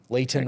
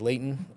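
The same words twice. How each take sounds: First: The name is said in a standard accent. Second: The name is said in a Utah accent. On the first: This is not how locals say it. "we don't say Layton" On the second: This is how locals say it. "We say Layton"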